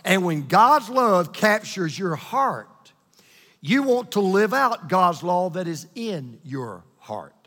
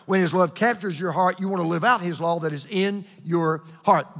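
First: Stretched, deliberate delivery; really slow. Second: Brisk wrap-up of the chain; quick. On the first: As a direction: take it slowly so every word sinks in. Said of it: "I wanna say it really slow". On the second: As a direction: say it quickly in one run. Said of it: "I'm gonna say it now quick". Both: Shown as a demonstration.

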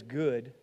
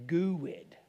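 First: Said in the usual way. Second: "good" drawn out into two syllables, goo-wed; Arkansas emphasis. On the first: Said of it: "emphasize something? Add a syllable". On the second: Shown as a demonstration. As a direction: stretch "good" with an added syllable, Southern style. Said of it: "Add a syllable".

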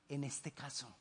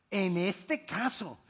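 First: Dropped, much softer "en este caso"; softly tossed-off "en este caso"; quiet aside. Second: "En este caso" slow, each word weighted; slow, stressed "En este caso"; slow emphatic repeat. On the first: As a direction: let "en este caso" fall away almost unheard. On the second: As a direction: lean on "En este caso" deliberately. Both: Shown as a demonstration.

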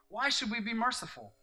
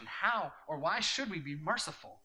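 First: Emphatic repeat. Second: Said in the usual way. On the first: Acted. Pastor pressing the congregation with the question, emphatic. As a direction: question repeated higher and louder.

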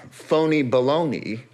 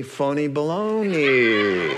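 First: Said in the usual way. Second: "phony baloney" slowed and stretched, falling hard on "baloney"; mocking sing-song "phony baloney", lingering on "baloney"; drawn-out phony baloney. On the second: Shown as a demonstration. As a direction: savour "phony baloney" slowly like a punchline. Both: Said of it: "polony, alimony, phony baloney".

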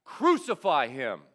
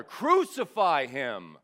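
First: Loud shouted cry of the mob. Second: Louder, slower drawn-out roar; roaring mob. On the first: Preacher voicing the mob shouting at Pilate, loud shout. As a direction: shout it back like an angry crowd. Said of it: "And the mob shouted back". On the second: Preacher voicing the mob roaring louder at Pilate, slow roar. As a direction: stretch it out and roar it even harder. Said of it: "they roared even louder". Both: A narrator's reading.

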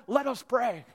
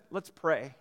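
First: Higher, lightly hammed-up pastor's call; mock-formal churchly invitation to prayer. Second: Said in the usual way. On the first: Pastor filling an awkward pause, mock-formal call to prayer. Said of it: "I say what all pastors say in that moment". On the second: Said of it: "as soon as I said".

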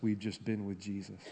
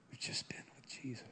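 First: Said in the usual way. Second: Hushed, reverent whisper; barely voiced, intimate repeat. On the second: Real, not acted. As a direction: whisper it to the congregation.

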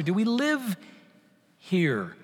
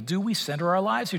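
First: Quiet question, live stressed, pause before here. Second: Said in the usual way. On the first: Shown as a demonstration.

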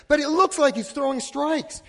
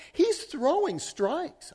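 First: Said in the usual way. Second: High, slow, stretched out as if obvious; drawn-out insistence. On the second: Retold or imitated. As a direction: lean on it slowly, sure he's right. Insisting at the ball game.

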